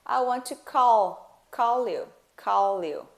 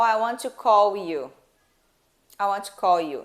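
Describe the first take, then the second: First: "call" drawn out with a clear L into "you"; L pronounced. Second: "call" mispronounced like "cow" before "you"; L dropped to U. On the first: Teacher correcting the mistake, L clearly sounded. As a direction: link a full L from "call" into "you". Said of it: "a gente pronuncia o som do L". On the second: Teacher showing the mistake in a sentence, L dropped. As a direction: say "call" with a U sound instead of L. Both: Shown as a demonstration.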